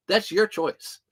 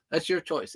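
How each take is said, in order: First: Firm mock-stern telling-off; teasing. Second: Softer, dropped echo of the line; softer repeat. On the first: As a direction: tell them it's on them, half joking. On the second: Retold or imitated. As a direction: say it again, softer, letting it land. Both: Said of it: "Like I told the kids".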